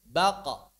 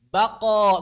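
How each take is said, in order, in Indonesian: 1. Konsonan akhir dilepaskan tanpa didorong. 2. Konsonan akhir didorong keluar dengan kuat. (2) "Jangan disengaja didorong begini"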